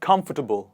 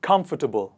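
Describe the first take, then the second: First: The ending is reduced to a short tubble. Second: The same.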